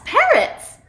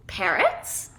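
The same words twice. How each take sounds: First: PARROTS exclaimed high and loud; emphatic, slow PARROTS; excited exclamation. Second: PARROTS as a question, rising sharply; puzzled, rising PARROTS. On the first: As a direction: announce PARROTS with delighted emphasis, drawn out. Storyteller confirms the surprise. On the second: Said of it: "Yetta asks". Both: A narrator's reading.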